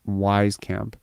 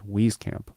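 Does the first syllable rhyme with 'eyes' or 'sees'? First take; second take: eyes; sees. First: The first syllable rhymes with 'eyes'. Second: The first syllable rhymes with 'sees'. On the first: The speaker calls it wrong. "how I'm saying it" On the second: The speaker calls it right. "how everyone else is saying it"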